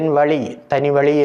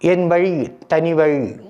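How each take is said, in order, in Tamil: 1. 'vazhi' என்பது சாதாரண l ஒலியுடன் சொல்லப்படுகிறது. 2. 'vazhi' என்பது retroflex zh ஒலியுடன் சொல்லப்படுகிறது. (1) "என்று சொன்னால் அர்த்தமே மாறிவிட்டது" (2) "என்பதற்கு பதிலாக"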